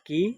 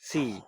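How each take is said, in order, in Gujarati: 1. તે કઠોર k અવાજથી શરૂ થાય છે. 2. તે નરમ s અવાજથી શરૂ થાય છે. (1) "ના" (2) "સી પછી ... આઈ ઈ અને વાય ... સ"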